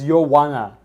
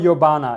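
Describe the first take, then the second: First: The middle consonant is a w sound. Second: The middle consonant is a b sound. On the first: The speaker calls it right. "It's you wanna" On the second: The speaker calls it wrong. "it's not Yobana"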